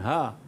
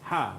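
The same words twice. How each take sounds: First: The h is a plain, soft breath. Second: The h is harsh and squeezed in the throat. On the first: The speaker calls it wrong. "bukan ha" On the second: The speaker calls it right. "sebutan mesti ha pedas"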